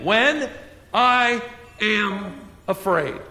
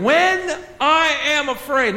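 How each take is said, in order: First: "When" rising, the rest slow and drawn out; stress on when. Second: "When" lifted high and stretched slowly; stress on when. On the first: Preacher repeating the verse, rising on "When", slow. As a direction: set "When" apart with a rise, then slow down. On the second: Preacher stressing "When" to his congregation, slow and high. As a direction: lean hard on "When", slow and raised. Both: Shown as a demonstration. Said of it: "circle that word when".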